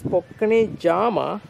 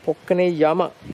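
First: The second word begins with a J sound. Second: The second word begins with a Y sound. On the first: "This is spelled as" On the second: "though pronunciation is with a Y"

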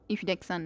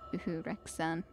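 First: It is said in the standard pronunciation. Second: It is said in a dialect pronunciation. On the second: "in a little bit more of a dialect way of saying"

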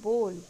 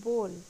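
The two takes are said the same way.

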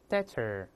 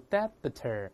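First: No b sound is heard in the middle. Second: A b sound is heard in the middle. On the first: The speaker calls it right. "中间这个B is silent，这个B 不发音" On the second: The speaker calls it wrong. "所以不要读debtor，连失去爆破的口型都没有啊"

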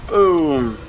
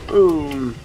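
No difference in how they are said.

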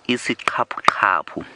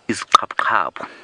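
First: The word is said slowly and carefully. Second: The word is said very quickly.

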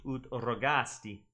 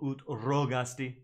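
First: The stress falls on the syllable 'ga'. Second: The stress falls on the syllable 'ro'. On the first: The speaker calls it right. "the macrons are over the A and the I" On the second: The speaker calls it wrong. "it sounds like he's putting the emphasis on the O"

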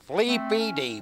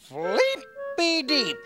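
First: It is said in an unfriendly tone. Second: It is said in a friendly, smiling tone.

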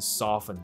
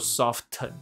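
First: The t sound is silent in the middle. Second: The t sound is pronounced in the middle. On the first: The speaker calls it right. "它的t 不发音，你就念成soften 就可以了" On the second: The speaker calls it wrong. "这个不念做soften"

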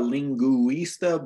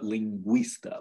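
First: The ü is a separate vowel syllable. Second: The ü is a short w-like glide. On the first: The speaker calls it wrong. "it's not a lingüista" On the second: The speaker calls it right. "like it just merges it into one"

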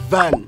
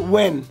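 First: The word begins with a lip-to-teeth V sound. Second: The word begins with a rounded W sound. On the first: The speaker calls it right. "but it's V A N van" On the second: The speaker calls it wrong. "they say when"

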